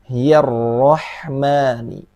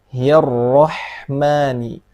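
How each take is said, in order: Both takes have the same delivery.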